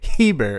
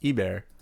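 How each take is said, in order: First: The name begins with an h sound. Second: The name begins with a vowel sound. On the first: The speaker calls it wrong. "you don't say Heber" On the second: The speaker calls it right. "it's French, so ... it's Eber"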